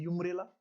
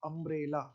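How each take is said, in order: First: The word begins with a 'yoo' sound. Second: The word begins with a short 'uh' vowel. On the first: The speaker calls it wrong. "इसको कोई अगर यूमरेला बोलने लगे तो आप कहेंगे पागल हो गया है" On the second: The speaker calls it right. "यहाँ तो यू अ हो गया ना"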